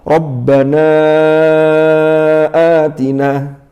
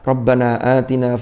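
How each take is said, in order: First: The vowel before 'atina' is held long. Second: The vowel before 'atina' is held short. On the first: It is recited as scripture. "Mestinya gimana?" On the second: It is used as a prayer, not recited as scripture. "Kurang panjang"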